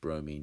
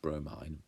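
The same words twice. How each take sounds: First: The word is pronounced the usual way. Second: The word is pronounced the way it looks. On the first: The speaker calls it right. "it's actually pronounced bromine" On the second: The speaker calls it wrong. "that looks like it should be pronounced bromine"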